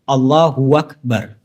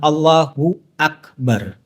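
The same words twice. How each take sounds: First: The second word begins with a w sound. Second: The second word begins with a plain a vowel. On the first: The speaker calls it wrong. "Alif diganti dengan waw. ... Ini salah" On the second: The speaker calls it right. "Yang seharusnya benar ... A, bukan wa"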